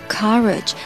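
The first vowel is an open 'ah' sound.

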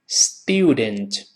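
The vowel has a 'y' glide, 'styoo'. "英式发音这个字母u 就是发u 这个双元音"

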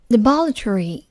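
It is said with a British accent.

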